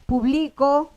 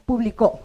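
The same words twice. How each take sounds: First: Publicó with the weight on BLI, pu-BLI-co, rising at the end; stress on middle syllable. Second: Publicó with the weight on the final CÓ, pu-bli-CÓ, falling; stress on last syllable. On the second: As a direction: punch the CÓ at the end of publicó. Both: Shown as a demonstration. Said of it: "Entonces puedo tener público".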